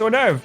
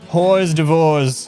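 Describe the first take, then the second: First: It is said with silent letters, like 'or-durv'. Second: It is read letter by letter, like 'horse divorce'. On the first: The speaker calls it right. "No, it's hors d'oeuvre" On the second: The speaker calls it wrong. "That's how you pronounce that, right?"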